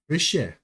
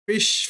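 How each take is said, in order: First: The word ends with a final vowel. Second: The word ends without a final vowel. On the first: The speaker calls it right. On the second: The speaker calls it wrong.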